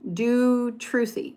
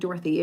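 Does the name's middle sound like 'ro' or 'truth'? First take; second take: truth; ro. First: The name is said as Do-truthy, with 'truth'. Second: The name is said like Dorothy, with 'ro'. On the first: The speaker calls it right. "It's Do Truthy" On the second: The speaker calls it wrong. "I keep saying Dorothy. It's not Dorothy"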